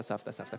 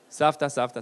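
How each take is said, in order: First: Much lower and very soft; soft low murmur of the word; hushed echo. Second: Said in the usual way. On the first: Shown as a demonstration. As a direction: let it fade to a murmur.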